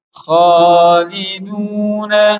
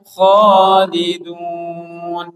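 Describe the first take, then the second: First: The word ends with a final vowel sound. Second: The word ends on a consonant, vowel dropped. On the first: The reading continues into the next word. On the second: The reading stops at this word.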